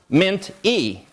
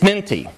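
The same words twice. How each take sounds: First: The syllable break falls awkwardly, sounding halting. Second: The syllables are grouped naturally, sounding smooth. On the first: The speaker calls it wrong. "It's also not pronounced mint-y" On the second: The speaker calls it right. "It's minty"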